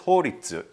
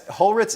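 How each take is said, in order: First: The surname is said the Japanese way, 'Horitsu'. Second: The surname is said the usual way, 'Holritz'.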